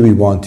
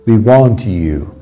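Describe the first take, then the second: First: The t and y blend into a ch sound. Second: The t and y are said separately. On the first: The speaker calls it right. "T plus ye sounds che" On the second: The speaker calls it wrong. "درستش چیه؟"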